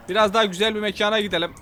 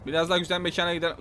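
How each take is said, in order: First: Said in the usual way. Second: Quick throwaway echo to himself; fast, softer mumble of the line; fast quiet repeat. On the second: Real, not acted.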